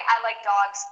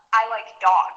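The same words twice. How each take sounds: First: "dogs" ending in a clear S. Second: "dog" ending on the g alone. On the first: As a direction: add the S at the end of "dogs". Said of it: "with an S". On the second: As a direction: leave the S off "dog". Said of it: "with no S". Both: Shown as a demonstration.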